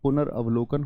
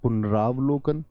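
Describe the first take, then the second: First: A short 'a' vowel follows 'punar'. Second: A long 'aa' vowel follows 'punar'. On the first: The speaker calls it right. "पुनर्अवलोकन होता है" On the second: The speaker calls it wrong. "गलती से ऐसे कर देते हैं पुनरावलोकन"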